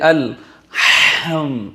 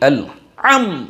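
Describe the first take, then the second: First: The h sound is pushed out very harshly. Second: The h sound is dropped entirely. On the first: "একদম মানে মানে খুব শক্ত করে উচ্চারণ করছে" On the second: "এভাবে উচ্চারণ করছে"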